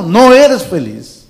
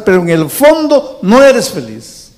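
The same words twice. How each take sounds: First: No eres feliz slowed right down, stress on eres falling; slow emphatic verdict. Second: Pero en el fondo no eres feliz, higher and louder, stress on eres with a falling close; emphatic preaching. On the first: Pastor repeating the verdict to the congregation, slow and weighty. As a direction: let each word land. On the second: Pastor telling the congregation they are not happy, emphatic falling line. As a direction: hammer the verdict home. Sermon peak, congregation addressed. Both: Acted.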